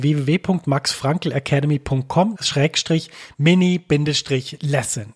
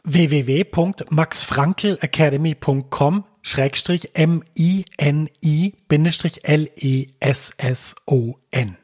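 First: Said in the usual way. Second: „M I N I bindestrich L E S S O N“ langsam Buchstabe für Buchstabe; „W W W punkt max frankl academy“ deutlich und langsam buchstabieren; buchstabiert. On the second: Shown as a demonstration. („M I N I“ einzeln buchstabiert, langsam und deutlich) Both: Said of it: "Ich buchstabiere das mal kurz".

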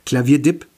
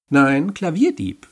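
First: "Klavierdip" said with a hard p at the end, the final syllable short; name repeated hesitantly. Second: "Nein, Klavierdieb" drawn out, stressing the dieb; corrected name. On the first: Repeating the creature's name as best he can, with a clipped "Klavierdip". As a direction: stumble over "Klavierdip", ending on a clipped p. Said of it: "Ich wiederhole das, so gut ich kann". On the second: Creature correcting him, slowly pronouncing "Klavierdieb" properly. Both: Acted.

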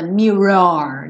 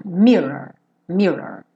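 First: "mirror" with a heavy, exaggerated second syllable; overdone final syllable. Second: "Mirror" stressed on the first syllable, light ending. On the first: Teacher showing learners what isn't needed, overdone ending. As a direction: lean too hard on the end of "mirror". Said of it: "não precisa também se preocupar muito com o final". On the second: Teacher says first syllable is tonic, first-syllable stress. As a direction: let the end of "Mirror" fall away. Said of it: "a sílaba tônica é a primeira". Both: Shown as a demonstration.

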